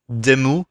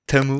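First: It is said with a French-like accent, starting with D. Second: It is said plainly, starting with a T.

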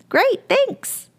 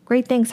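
First: It sounds cheerful and upbeat. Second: It sounds flat and unenthusiastic.

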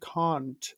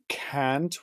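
First: Said in a posh mid-Atlantic accent. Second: Said in a plain American accent. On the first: This is the refined upper-class way to say it. The speaker calls it right. "we say can't" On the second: This is the everyday way people say it. The speaker calls it wrong. "we don't say can't"

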